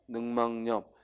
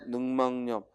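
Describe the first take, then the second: First: An n sound is added before the last syllable. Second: The last syllable starts with a vowel, no n. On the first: The speaker calls it right. "니은 첨가가 일어나서 늑막염" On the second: The speaker calls it wrong. "늑막염이 아니라 뭐야?"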